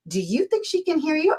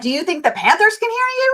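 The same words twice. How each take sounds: First: Higher, softer mock query; retold teasing question. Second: High-pitched mocking echo of the question; retold sassy comeback. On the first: Husband to wife yelling at TV, retold teasing. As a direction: imitate a husband's pointed little question. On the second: Wife to Panthers-fan husband, sassy comeback. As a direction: throw the question back, pitched way up.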